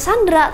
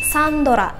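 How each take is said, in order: First: The d and r are said together, no vowel. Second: An o vowel is inserted between d and r. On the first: "bukan Sandra" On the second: "tapi Sandora. Sandora, kayak gitu"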